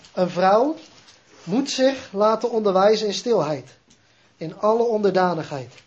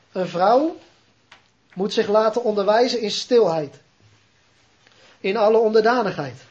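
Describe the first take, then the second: No difference in how they are said.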